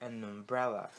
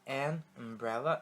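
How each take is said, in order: First: The two words are linked as one. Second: The two words are said separately.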